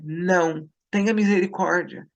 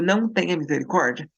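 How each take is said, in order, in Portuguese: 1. Há uma pausa depois de "não". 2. Não há pausa depois de "não".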